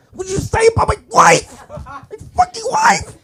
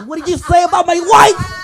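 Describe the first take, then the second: First: Very high, laughing yell, slowing on wife; mock shrill husband. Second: Much higher, louder laughing yell; mock outraged husband. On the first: Comic's second take of the husband, hammed-up high screeching yell. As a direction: screech it like an outraged square. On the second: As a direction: yell like a squeaky offended husband.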